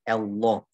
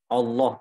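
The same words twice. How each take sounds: First: The first vowel sounds too thin, like e. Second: The first vowel sounds like a thin a. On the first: The speaker calls it wrong. "Jangan juga ketipisan jadi e" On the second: The speaker calls it right. "Yang penting hamzanya tipis a, bukan o"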